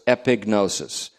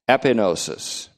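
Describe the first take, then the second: First: The G is pronounced before the N. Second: The G is silent before the N. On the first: The speaker calls it right. "the G is actually pronounced in this" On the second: The speaker calls it wrong. "we used to pronounce it that way"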